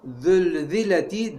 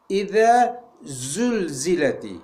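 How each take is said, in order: First: The first consonant is a lisped 'th' sound. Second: The first consonant is a sharp buzzing z. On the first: The speaker calls it wrong. "zulzileti demeyeceğiz" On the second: The speaker calls it right. "İze zulzileti şekliyle çıkaracağız"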